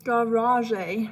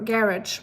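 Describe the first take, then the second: First: Garage said the French way, ending in a drawn-out ay: ga-ra-ZHAY; garage rolled out like a French word, rising at the end; French-style garage. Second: Asking about garage with stress on -rage; puzzled garage. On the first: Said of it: "I'm gonna call it garage from now on". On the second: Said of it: "Why is it garage?". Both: Shown as a demonstration.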